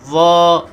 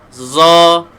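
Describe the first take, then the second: First: The consonant is a soft th-like sound. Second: The consonant is a thick z-like sound. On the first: The speaker calls it right. "keluarkan hujung lidah ni" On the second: The speaker calls it wrong. "bunyi tebal tetapi makhrajnya salah"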